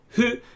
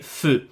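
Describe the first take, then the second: First: It starts with a plain h sound. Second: It starts with a clear f sound. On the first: "you don't have hu" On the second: "then you can always say fu"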